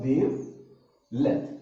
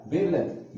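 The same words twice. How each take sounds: First: wavelength stretched out, every syllable drawn out slowly; slow, careful wavelength for the class. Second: Said in the usual way. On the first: Shown as a demonstration. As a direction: say wavelength very slowly so students catch it. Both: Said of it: "मैं आराम से बोलता हूँ".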